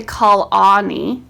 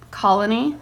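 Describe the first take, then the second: First: "colony" said loudly as col-AH-nee; wrong full vowel. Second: Said in the usual way. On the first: Shown as a demonstration. Teacher showing what we don't say, "colony" as col-AH-nee. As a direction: give the middle of "colony" a full ah. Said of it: "We don't say colony". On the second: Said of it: "We say col".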